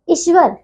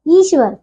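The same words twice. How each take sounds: First: ईश्वर with a short opening i; wrong short vowel. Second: ईश्वर with a long opening ee; correct long vowel. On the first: Teacher showing pupils the misspelling, ईश्वर with short i. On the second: Teacher correcting pupils, ईश्वर with long ee. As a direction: draw out the first ee of ईश्वर. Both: Shown as a demonstration. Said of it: "ईश्वर नहीं".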